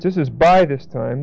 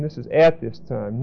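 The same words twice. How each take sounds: First: "by" stressed, falling. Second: "at" stressed, said softer and lower. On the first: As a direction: lean on "by" in "by this time". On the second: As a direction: lean on "at" in "at this time". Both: Shown as a demonstration. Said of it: "Notice the difference".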